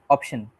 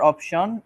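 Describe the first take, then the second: First: The last syllable is a plain shun sound. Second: The last syllable is not a plain shun sound. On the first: The speaker calls it right. "it's option. A simple shun sound" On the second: The speaker calls it wrong. "It's not"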